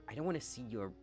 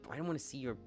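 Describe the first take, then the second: Both takes have the same delivery.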